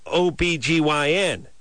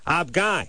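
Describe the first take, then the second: First: Each letter is spoken separately. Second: It is spoken as one short word. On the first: The speaker calls it wrong. "This is O-B-G-Y-N. It's weird" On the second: The speaker calls it right. "You should say ob-guy"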